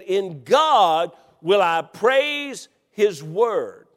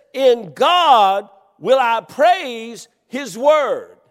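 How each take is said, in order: First: "God" drawn out slowly; In God, stressed. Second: "God" stressed, very slow and loud; slow emphatic reading; emphasized verse. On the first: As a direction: lean on "God" in the phrase. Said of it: "that unique phrase". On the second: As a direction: read "In God" slowly with weight. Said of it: "Let's just emphasize". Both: Shown as a demonstration.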